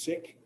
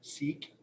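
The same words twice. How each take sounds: First: The vowel is not a long 'ee' sound. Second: The vowel is a long 'ee' sound. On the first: This is how the community itself says it. The speaker calls it right. "The correct way to say it" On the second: This is how most American listeners recognize it. The speaker calls it wrong. "we usually say Sikh, like S E E K"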